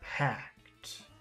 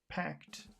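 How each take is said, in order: First: The word is said with strong focus emphasis. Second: The word is said plainly, without extra emphasis. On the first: "Here's focus packed" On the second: "Here's regular packed"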